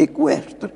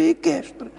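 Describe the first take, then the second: First: "equestre" as e-KWESH-tre; u pronounced. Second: "equestre" as e-KESH-tre; silent u. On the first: Linguist gives the standard variant, "equestre" as e-KWESH-tre. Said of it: "o que predominava na norma culta". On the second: Linguist reports younger colleagues' variant, "equestre" as e-KESH-tre. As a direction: say "equestre" without the w. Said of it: "a tendência é para equestre". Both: Shown as a demonstration.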